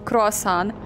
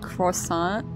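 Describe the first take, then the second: First: The word is said with a Russian pronunciation. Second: The word is said with a French pronunciation. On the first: "In Russian it's croissant" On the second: "You say it in a French manner"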